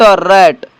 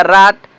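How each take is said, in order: First: रैट with "ai" vowel as in English "rat"; correct pronunciation. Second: राट with long "aa" vowel as in "raat"; wrong pronunciation. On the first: Teacher gives students the correct reading, रैट said with "ae". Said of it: "इसका शुद्ध उच्चारण इस तरीके से होगा". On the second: Teacher shows students the cheap-English reading, राट said with "aa". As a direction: read राट with an open drawn-out "aa". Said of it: "cheap अंग्रेजी पढ़े हैं तो इसको पढ़ना चाहिएगा". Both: Shown as a demonstration.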